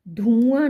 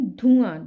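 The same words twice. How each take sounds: First: धुआं as dhooaan, long ऊ, loud; wrong long vowel. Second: धुआं with a short उ, loud; correct short vowel. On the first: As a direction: stretch धु to धू in धुआं. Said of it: "धुआं नहीं". (धुआं में 'धू' लंबा बोलें) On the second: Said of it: "धा में छोटे ऊ". (धुआं में 'धु' छोटा बोलें) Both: Shown as a demonstration.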